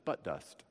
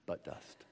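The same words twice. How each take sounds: First: Said in the usual way. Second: "But dust" whispered with no voice, as a private pun; whispered joke. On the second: Shown as a demonstration. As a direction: breathe "But dust" as a cheeky aside. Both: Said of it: "if you say it several times".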